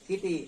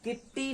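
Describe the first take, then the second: First: The middle t sound is kept short. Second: The middle t sound is held long. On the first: The speaker calls it right. "क्या बोलेंगे" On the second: The speaker calls it wrong. "किट्टी नहीं"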